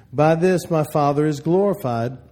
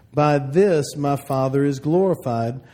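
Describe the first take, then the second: Both takes have the same delivery.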